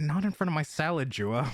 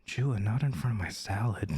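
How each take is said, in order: First: Said in the usual way. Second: Much lower, suggestive delivery. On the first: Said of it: "It's different than going". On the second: Shown as a demonstration. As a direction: drop it low, as if flirting. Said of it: "maybe don't use that voice then".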